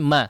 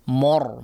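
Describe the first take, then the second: First: The vowel after m sounds thin, like a. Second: The vowel after m sounds thick, like o. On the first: The speaker calls it right. "La, tapi ma" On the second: The speaker calls it wrong. "mimnya kemudian terpengaruh ya, ketebalan huruf ra sehingga cenderung menebal"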